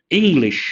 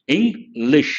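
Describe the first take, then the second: First: Said in the usual way. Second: "English" broken into two separate beats, Eng-lish; "English" counted out in two parts; split into syllables. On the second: Shown as a demonstration. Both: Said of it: "English has two syllables".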